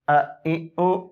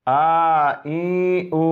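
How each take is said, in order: First: The vowels are clipped short with a jerk. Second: The vowels are drawn out long. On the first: "इस तरह झटके से नहीं पढ़ेंगे, ये गलत है" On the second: "लंबा करके भी नहीं पढ़ेंगे, ये भी गलत है"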